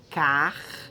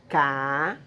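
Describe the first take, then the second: First: "carroça" split car, ro, ça, R closing first syllable; correct syllable division. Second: "carroça" split ca, rro, ça, first syllable open; wrong syllable division. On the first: Teacher showing the right split, "carroça" as car, ro, ça. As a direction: sound the R at the end of "car" in "carroça", then pause. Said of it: "ele faz parte da primeira sílaba". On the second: Teacher showing the wrong split, "carroça" as ca, rro, ça. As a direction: split "carroça" slowly with no R closing "ca". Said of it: "ela não se separa em". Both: Shown as a demonstration.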